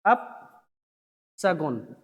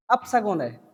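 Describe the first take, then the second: First: "अपशगुन" drawn out very slowly, split after अप; slow dictation. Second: Said in the usual way. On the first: Shown as a demonstration. Teacher spelling out the bad omen for students, slow dictation of "अपशगुन". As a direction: say "अपशगुन" in two low, widely spaced parts.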